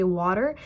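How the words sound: It is spoken with an American accent. "in American accent"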